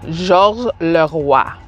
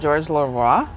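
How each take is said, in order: First: The name is said with rolled French R sounds. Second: The name is said with plain English R sounds.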